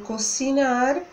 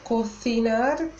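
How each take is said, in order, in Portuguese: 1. O c é pronunciado com som de s. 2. O c é pronunciado com som de th. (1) "a gente diz" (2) "uma pessoa de Barcelona diria"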